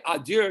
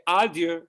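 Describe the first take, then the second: First: "adieu" with the opening vowel passed over quickly; unwanted stress. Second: "adieu" with a fuller, longer opening "ah"; upbeat leaned on. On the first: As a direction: rush through the first syllable of "adieu". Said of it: "you don't say adieu". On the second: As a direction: give the first syllable of "adieu" more voice. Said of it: "you say adieu". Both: Shown as a demonstration.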